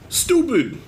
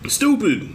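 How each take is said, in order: Both takes have the same delivery.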